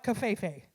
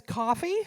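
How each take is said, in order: First: Cafefe drawn out slowly as caf-eh-fay; mispronounced coffee. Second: Said in the usual way. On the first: Shown as a demonstration. To the crowd, mocking the wrong spelling: slow mispronunciation. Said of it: "it says coffee". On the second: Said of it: "not cafefe".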